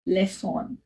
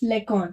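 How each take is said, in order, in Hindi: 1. बीच का व्यंजन s ध्वनि है। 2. बीच का व्यंजन k ध्वनि है। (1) "अगर हम इसमें एक्सेंट लगा देते हैं तो उसका प्रोनाउंसिएशन हो जाएगा लेसॉन" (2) "अभी सी के ऊपर नहीं है एक्सेंट, तो हम इसको प्रोनाउंस करेंगे लेकॉन"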